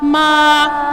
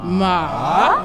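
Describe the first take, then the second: First: The pitch stays high and level. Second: The pitch dips down and then rises. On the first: "First tone was ... Little higher. Remember, sing song" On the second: "Third tone was a ... it looks like a little V"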